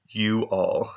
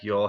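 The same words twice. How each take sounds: First: It is said clearly as two separate words. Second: It is said fast, blending into one syllable. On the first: "but no, you all" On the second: "I said it fast and it sounded like y'all"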